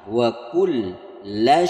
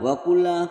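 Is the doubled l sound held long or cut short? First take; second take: held; short. First: The doubled l is pressed and held long. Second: The doubled l is cut short, not held. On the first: The speaker calls it right. "ada tasjid itu ditekan kemudian ditahan" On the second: The speaker calls it wrong. "kurang tahan atau kurang tekan"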